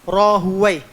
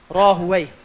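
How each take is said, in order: No difference in how they are said.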